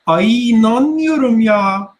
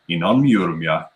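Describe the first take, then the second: First: It is said in a feminine style. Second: It is said in a masculine style.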